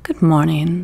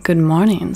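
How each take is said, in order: First: Lightly voiced little prince, polite; a touch of a courteous young prince; polite greeting. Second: Lightly voiced fox, half-voiced out of the whisper; a gentle hint of a fox saying hello; fox's greeting. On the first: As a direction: prince politely answering the fox. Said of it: "the little prince responded politely". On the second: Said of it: "said the fox".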